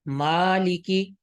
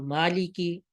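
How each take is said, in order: First: مالکی with the alif stretched long and slow. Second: مالکی with the alif clipped short; swallowed alif, wrong. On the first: Tutor showing students the long alif in مالکی. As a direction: hold the first vowel of مالکی. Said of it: "الف کو لمبا کرنا ہے تو مالکی". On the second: Tutor showing students the wrong short alif. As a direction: rush the first vowel of مالکی. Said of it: "الف کو کھا جائے". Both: Shown as a demonstration.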